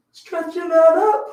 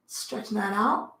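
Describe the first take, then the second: First: Higher and louder, slow strained groan; pulled up high with effort; strained stretch. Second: Said in the usual way. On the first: Real, not acted. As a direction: let the stretch squeeze the words out.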